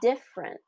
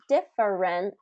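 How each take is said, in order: First: A middle syllable is dropped or reduced. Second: Every syllable is fully pronounced. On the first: The speaker calls it right. "but different" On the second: The speaker calls it wrong. "not different"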